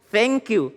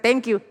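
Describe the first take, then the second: First: Thank starts with a soft hissing th sound. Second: Thank starts with a hard plain t sound. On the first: The speaker calls it right. "Jadi pakai huruf fa itu" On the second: The speaker calls it wrong.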